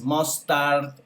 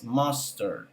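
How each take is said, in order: First: "mustard" with both syllables full and a hard "rt" at the end, said slowly; over-pronounce "mustard" as "mos-tart", each syllable equal; "mustard" read out letter by letter, Spanish style; wrong pronunciation. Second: "mustard" with a strong first syllable and a weak, reduced "ter" at the end, said slowly and softer; "mustard" the English way, with the stress up front; correct pronunciation. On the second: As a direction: hit the "mus" and let the end fade to "MUS-ter".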